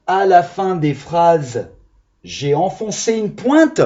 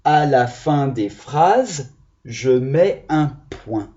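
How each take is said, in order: First: Slow, teasing silly reading of the wrong ending; mock wrong answer. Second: Slow, careful reading of the right sentence; slow model reading. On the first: Teacher reads the silly wrong ending to the children, mock serious. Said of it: "On fait ça à l'école". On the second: Teacher reads the correct sentence to the class, slow and careful. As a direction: read it out slowly so the children follow. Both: Shown as a demonstration.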